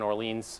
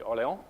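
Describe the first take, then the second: First: The name is said with an English-style pronunciation. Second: The name is said with a French-style pronunciation. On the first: The speaker calls it wrong. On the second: The speaker calls it right.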